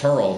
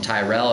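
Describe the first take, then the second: First: The name is pronounced as Turl. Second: The name is pronounced as Tyrell. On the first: This is how his Swedish wife says the name. "his wife's character calls him Turl" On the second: This is how everyone else says the name. "everyone else calls him Tyrell"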